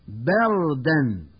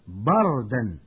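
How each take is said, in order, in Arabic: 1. تُنطق الباء خفيفة، غير مفخمة. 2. تُنطق الباء ثقيلة ومفخمة.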